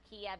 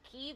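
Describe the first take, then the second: First: The city name is said the Russian way. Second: The city name is said the Ukrainian way. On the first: "the Russian pronunciation" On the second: "the way that the Ukrainians say their capital city"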